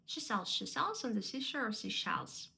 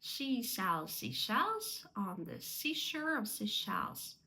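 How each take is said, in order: First: Quicker tongue-twister run; brisk, run-together recitation; sped up. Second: Slow, careful tongue twister; measured, deliberate recitation; slow and correct. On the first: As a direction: rattle it off without gaps. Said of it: "потім пришвидшуватися". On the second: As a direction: articulate each s and sh at practice pace. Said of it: "треба спочатку повільно, правильно". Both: Shown as a demonstration.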